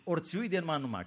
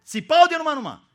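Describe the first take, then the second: First: Said in the usual way. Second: „țipau” shot out much higher and louder; mock screaming. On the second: Shown as a demonstration. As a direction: scream out „țipau de numai numai” as the panicked fishermen did. („țipau” strigat tare și sus) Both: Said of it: "cam ce-o fi fost acolo".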